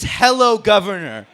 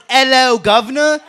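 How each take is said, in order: First: Repeating the tease in a light mock British accent. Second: Light mock British "Hello, governor", louder and higher; roasting the British, a light mock British accent. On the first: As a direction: parrot the British greeting with a touch of accent. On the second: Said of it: "What is this".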